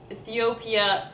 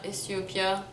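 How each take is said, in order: First: Ethiopia with English "th"; American pronunciation. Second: Ethiopia with S for "th"; Lebanese pronunciation. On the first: Announcing it to viewers, "th" in Ethiopia. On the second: Showing the Lebanese name, S in Ethiopia. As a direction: softly say Ethiopia as "es-yo-pia". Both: Shown as a demonstration. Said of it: "say states and countries".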